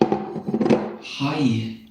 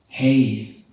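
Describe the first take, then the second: First: The vowel sounds like 'high'. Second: The vowel sounds like 'hay'.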